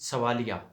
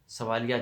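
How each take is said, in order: The two takes are said the same way.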